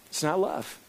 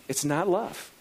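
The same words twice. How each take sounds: First: NOT punched, falling tune; stress on NOT. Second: Love lifted with a rise; stress on love. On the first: Pastor repeating to congregation, not stressed falling. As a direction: hit the word "not" hard and let it fall. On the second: Pastor to congregation, love stressed with a rise. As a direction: land the word "love" with a rising lift. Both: Shown as a demonstration.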